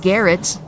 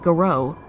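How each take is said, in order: First: The word ends with an 'et' sound. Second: The word ends with an 'oh' sound. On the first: "They just know Garrett" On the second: "it's actually pronounced Garrow"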